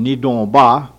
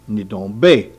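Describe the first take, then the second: First: The final syllable is pronounced 'ba'. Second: The final syllable is pronounced 'be'. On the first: This is the form used on the speaker's reservation. "which we say on our reservation" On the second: This is the form used at Old Town. "in Old Town they say be"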